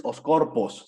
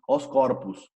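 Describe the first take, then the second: First: Corpos ending in a clear open "os"; final O as written. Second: Corpus, last syllable a half-closed u; slow "os corpus", ending in "us" instead of "os"; final O as U. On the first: Teacher shows what not to say, corpos with full O. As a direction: say corpos with a full O in the last syllable. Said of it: "en el plural no dices". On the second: Teacher corrects the plural, corpus ending in U sound. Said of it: "como si fuese una U". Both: Shown as a demonstration.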